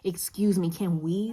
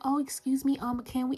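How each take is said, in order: First: It is said in a rude, impatient tone. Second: It is said in a polite, hesitant tone.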